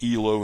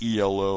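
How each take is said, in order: First: It is said as a single two-syllable word. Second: It is spelled out as three separate letters. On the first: The speaker calls it right. "it is E L O" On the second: The speaker calls it wrong. "not E L O"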